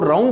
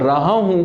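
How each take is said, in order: First: The two words merge into one short syllable pair. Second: Both words are said fully and separately. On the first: "राहूं कर देते हैं" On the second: "हम रहा हूं को राहूं कर देते हैं"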